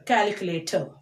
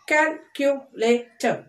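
First: Said in the usual way. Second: CALCULATOR slowly as cal, cu, la, tor; four separate beats on CALCULATOR; split into syllables. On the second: Shown as a demonstration. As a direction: say CALCULATOR one syllable at a time. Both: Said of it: "four syllable words".

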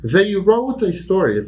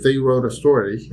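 First: Slow model with "wrote" stressed. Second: Said in the usual way. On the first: Shown as a demonstration. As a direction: punch "wrote". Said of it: "teacher demo".

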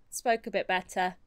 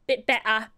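First: Said in the usual way. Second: "Bit better" with a crisp, lightly posh "better"; posh it up a touch; poshed-up accent. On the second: Shown as a demonstration. Showing viewers her poshed-up letter voice, lightly posh. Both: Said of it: "poshed it up a little bit".

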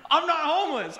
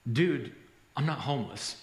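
First: High, loud echo of disbelief; incredulous repeat. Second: Low, matter-of-fact correction after a pause; deadpan reply. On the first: Repeats the man's line, amazed. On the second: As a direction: set him straight, low and unhurried. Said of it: "finally paused, and, and he said". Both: Retold or imitated.

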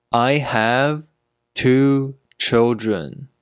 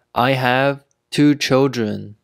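First: Slow, with a pause mid-sentence; slow teaching pace. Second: Said in the usual way. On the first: Shown as a demonstration. Teacher modelling "two children" for learners, slowly.

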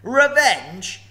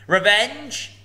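First: Higher, louder scornful roar; roaring dragon. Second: High, loud scornful snort of a word; snorting dragon. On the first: Dragon mocking revenge, huge roar. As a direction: throw it to the ceiling. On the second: Dragon scoffing at Bilbo, loud snort. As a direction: spit it out in contempt. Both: Acted. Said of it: "he snorted".

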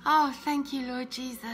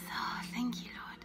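First: Said in the usual way. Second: Whispered thanks under the breath. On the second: Real, not acted. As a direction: breathe it, barely voiced. Repeats thanks under her breath.

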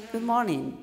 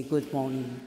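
First: Good morning lifted high, then falling; high-pitched greeting. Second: Good morning sunk low; low-toned greeting. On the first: Coach corrects a low-toned opening, high-pitched. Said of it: "with this low tone". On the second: Coach demonstrates the tone to avoid, low. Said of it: "I have this low tone". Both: Shown as a demonstration.

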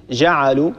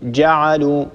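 First: جعلوا with a soft, leaky zh-like ج; جعلوا opening on a lax fricative jim. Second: جعلوا with a hard, fully stopped j; جعلوا opening on a strong plosive jim; firm correct jim. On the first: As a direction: let the ج in جعلوا slide loosely. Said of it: "من الأخطاء أن ننطقها رخوة، لا نقول". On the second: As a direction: close firmly on the ج of جعلوا. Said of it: "إنما نقول جعلوا". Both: Shown as a demonstration.

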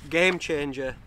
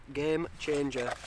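First: Said in the usual way. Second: "game changer" slow and softer, falling on "game"; savouring emphasis. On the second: Real, not acted. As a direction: drawl out "game changer" with relish.

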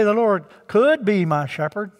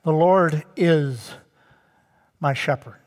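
First: "could" punched as the wrong word; stress on "could". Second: "is" drawn out, falling, then a pause; stress on "is". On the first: Preacher ruling out mere possibility, pointed stress on "could". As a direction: hit "could", then run on through the phrase. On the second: Preacher showing the present tense, weighty stress on "is". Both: Shown as a demonstration. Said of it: "see the present tense".

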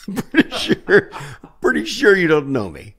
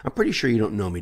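First: Incredulous falsetto protest; flustered insistence. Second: Said in the usual way. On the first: Retold or imitated. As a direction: protest in a comic high voice. Flustered repeat, acted out.

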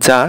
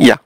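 First: যা said "ja" with English j; যা opening on a j as in jar; English-style reading. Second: ইয়া said "ya" with a y sound; ইয়া opening on y, not j; German pronunciation. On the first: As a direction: read যা the English way, hard j. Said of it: "ইংলিশে আমরা বলি জে এ". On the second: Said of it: "কিন্তু ওরা বলবে ইয়া". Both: Shown as a demonstration.

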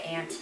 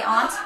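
First: Flat-A "aunt", rhyming with "pant"; local "aunt". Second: "aunt" as "ahnt", not "ant"; translated "aunt". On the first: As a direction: say "aunt" like "ant". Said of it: "You think I have an accent because I say aunt". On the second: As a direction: say "aunt" with a broad "ah". Translating the other's accent line. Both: Shown as a demonstration.

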